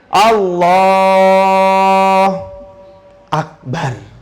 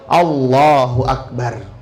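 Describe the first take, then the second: First: There is a pause between the two words. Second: The two words run together without a pause. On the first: The speaker calls it wrong. "tidak ada begini ... nggak sah juga begitu tuh" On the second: The speaker calls it right. "Jadi tidak ada jeda"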